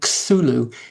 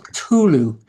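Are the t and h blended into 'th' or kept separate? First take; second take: blended; separate. First: The t and h blend into one 'th' sound. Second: The t and h are sounded as separate parts. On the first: This is the common way people say it. The speaker calls it wrong. "It's not T H, so the sound isn't supposed to be Cthulhu" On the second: This is how the author originally meant it. The speaker calls it right. "It's supposed to be"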